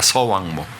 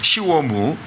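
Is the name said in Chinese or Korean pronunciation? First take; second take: Korean; Chinese. First: The name is said with Korean sounds. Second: The name is said with Mandarin sounds. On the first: "서왕모입니다" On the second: "중국어로"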